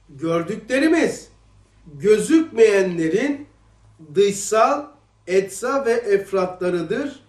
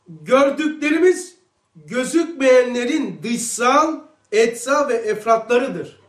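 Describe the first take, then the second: First: The sentence is read slowly. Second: The sentence is read at a normal pace.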